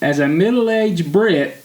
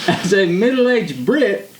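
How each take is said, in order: First: It is read in the speaker's usual accent. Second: It is read in a put-on British accent. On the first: The speaker calls it wrong. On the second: The speaker calls it right.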